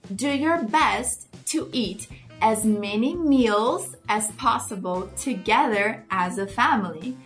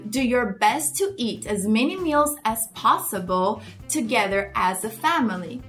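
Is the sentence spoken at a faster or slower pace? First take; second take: slower; faster. First: The sentence is spoken a little more slowly. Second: The sentence is spoken at a normal pace.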